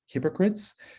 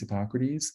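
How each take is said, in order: First: It is said with three syllables, like 'hypocrites'. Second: It is said with four syllables, ending in 'teez'. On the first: The speaker calls it wrong. "how they mispronounce it" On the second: The speaker calls it right. "how to pronounce Hippocrates"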